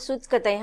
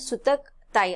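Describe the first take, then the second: First: The word divides after the syllable sut. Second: The word divides after the syllables sutak. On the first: It means spinning thread. The speaker calls it right. "त्याचा सूत आणि कताई हा दोन शब्द मिळून बनलेला आहे" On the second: It reads as a different, wrong phrase. The speaker calls it wrong. "असा लिहिला तर तो चुकीचा शब्द होतो"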